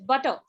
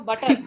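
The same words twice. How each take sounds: First: The t sound is soft and mild. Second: The t sound is strong and hard. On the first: The speaker calls it right. "It's butter. ... r, d, t, all these are very mild" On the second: The speaker calls it wrong. "There's no butter. ... In India, they are very strong"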